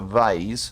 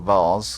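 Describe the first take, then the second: First: The word is said in an American accent. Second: The word is said in an English accent.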